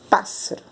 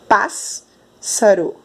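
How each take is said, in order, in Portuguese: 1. Ouve-se apenas um som de s. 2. Ouvem-se dois sons de s separados. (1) "Só dá para ouvir o som de um S" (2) "nós não falamos pássaro"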